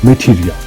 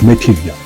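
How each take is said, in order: No difference in how they are said.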